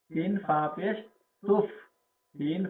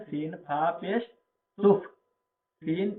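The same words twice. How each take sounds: The two takes are said the same way.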